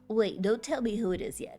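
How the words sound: It is said in a put-on character voice.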